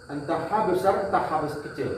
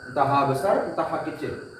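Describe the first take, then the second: The two takes are said the same way.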